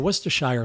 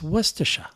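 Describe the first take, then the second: First: It is said in a general, non-Boston way. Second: It is said with a Boston-style pronunciation. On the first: This is how other people say it. "everyone else was mispronouncing" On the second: This is how the speaker's family says it. "like Worcester"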